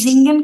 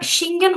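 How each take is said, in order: First: The word begins with a buzzing z sound. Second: The word begins with a hissing s sound. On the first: The speaker calls it right. "এটার উচ্চারণটা জিঙ্গেন কেন বলছি আমরা?" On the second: The speaker calls it wrong. "তাহলে এটা সিঙ্গেন হলো না কেন বলেন তো?"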